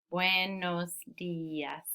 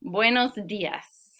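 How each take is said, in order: First: "Buenos dias" very slowly, split as bue-nos di-as; softer, four drawn-out beats on "Buenos dias"; syllable by syllable. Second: Said in the usual way. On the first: Shown as a demonstration. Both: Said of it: "Four syllables".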